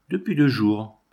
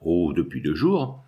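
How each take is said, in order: First: Said in the usual way. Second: Slow, lower echo of the answer; musing echo. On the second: A narrator's reading. Priest takes up the dying man's answer, musing. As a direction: draw out the Oh, let it sink.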